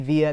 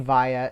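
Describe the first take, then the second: First: It is said the speaker's own usual way. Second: It is said the way Australians say it. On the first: "I say via" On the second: "they say via ... that's how they say it in Australia"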